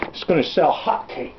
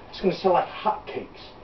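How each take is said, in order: First: Said in the usual way. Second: Hushed, unvoiced whisper. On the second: Bill confiding to the crowd that it will sell, whispered. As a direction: whisper it like a secret. Repeats line, then drops to whisper.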